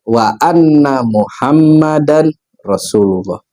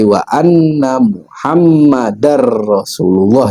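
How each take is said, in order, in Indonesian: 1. Bunyi n diucapkan terpisah sebelum r. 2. Bunyi n menyatu dengan bunyi r setelahnya. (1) "karena biasa dipecah-pecah gitu bacanya" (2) "yang benar"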